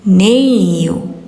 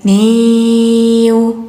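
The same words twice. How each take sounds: First: The sound is kept short, not held. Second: The sound is held and drawn out. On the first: The speaker calls it right. "ini jangan ditahan ya" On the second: The speaker calls it wrong. "jangan niyu"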